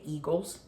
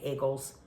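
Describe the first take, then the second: First: It is said in a milder, more neutral accent. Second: It is said in a heavier, stereotyped local accent. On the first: This is how the speaker actually says it. The speaker calls it right. "I say Eagles" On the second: This is how others assume the speaker says it. The speaker calls it wrong. "I don't say Eagles"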